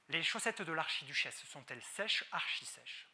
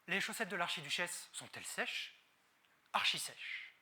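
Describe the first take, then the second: First: It flows on without a marked dramatic pause. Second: A marked pause comes before the final phrase. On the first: "articuler. En exagérant les muscles du visage" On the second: "on va utiliser ces outils, silence, main et regard, pour rendre plus impactant votre discours"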